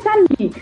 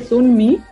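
First: The first vowel sounds like 'ah'. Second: The first vowel sounds like 'oo'. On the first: The speaker calls it right. "se dice Sunmi? ... Sun es San" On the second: The speaker calls it wrong. "le dije Sunmi"

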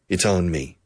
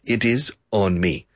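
First: It is said as one contracted word. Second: It is said as two full words, uncontracted. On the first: The speaker calls it right. "it's mandatory to make the contraction" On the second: The speaker calls it wrong. "literalmente, it is on me"

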